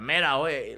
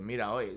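First: Put-on calling out "Mira, oye" in a South Florida Spanish accent, a bit louder. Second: Put-on "Mira, oye" said lightly in a South Florida Spanish accent. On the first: Passing stranger calls out to a stuck driver, South Florida Spanish accent. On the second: Teller quotes a stranger's greeting, light South Florida Spanish accent. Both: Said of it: "It was, like, South Florida Spanish".

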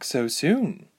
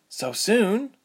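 First: Said in the usual way. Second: SOON lifted into a high question; surprised echo. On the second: A narrator's reading. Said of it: "Ilse repeated".

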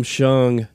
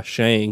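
First: Shung with an "uh", as in "lung"; Shung, short "uh" vowel; approved pronunciation. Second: Shang with the "a" of "hang"; Shang, read as spelt with an A; pronounced with an A. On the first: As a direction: say Shung to rhyme with "sung". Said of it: "I could call him Shung". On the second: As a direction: say Shang to rhyme with "sang". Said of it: "could call the other guy". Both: Shown as a demonstration.

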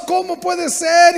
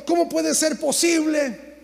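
First: Higher, louder, slow anguished question; protesting cry at God; loud outcry. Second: Slow, mild mock complaint; a lightly voiced, drawn-out whine; slow retold lament. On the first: Retold or imitated. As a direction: shout it slowly at heaven. Crying out to God in complaint. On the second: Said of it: "lloraba y me quejaba".

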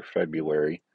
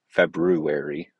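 First: Said in the usual way. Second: "February" slow and louder, R sounded as "Feb-roo-ary"; school-days pronunciation. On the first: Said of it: "as I used to say". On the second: Shown as a demonstration. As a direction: stretch out "February" with a clear "roo". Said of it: "as I used to say in school".

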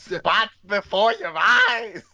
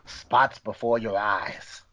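First: High, drawn-out mock-excited announcement; over-the-top, high-pitched title read; hammed-up title reveal. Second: Slow, measured title announcement; drawn-out, low-key title read; slow title reveal. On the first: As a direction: blurt the title slowly in a high voice. Repeats the clue, hammed up. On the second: Pretend. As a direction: announce the title slowly, letting it fall. Reads out the title clue first time.

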